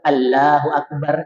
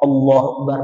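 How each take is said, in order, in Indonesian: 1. Diucapkan dengan logat India, konsonannya tipis. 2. Diucapkan dengan konsonan Arab yang tebal dan penuh. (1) "mereka Allahu Akbar India" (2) "Mana dia bisa bilang Allahu Akbar"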